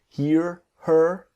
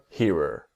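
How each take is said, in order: First: The two words are said separately and clearly. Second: The two words blend into one quick word.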